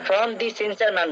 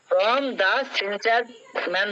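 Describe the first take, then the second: First: "The" is said with a long "dee" vowel. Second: "The" is said with a short "duh" vowel. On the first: "একজন দি বললো" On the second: "একজন দা বললো"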